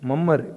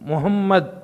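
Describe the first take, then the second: First: The name is said in a clipped local form. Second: The name is said in the full Arabic form. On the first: The speaker calls it wrong. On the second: The speaker calls it right.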